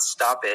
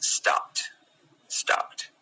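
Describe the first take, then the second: First: "stopped" said as stop-ed, wrong ending. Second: "stopped" whispered with a t ending, stopt; right stopped. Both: Shown as a demonstration. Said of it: "So it's not stopped".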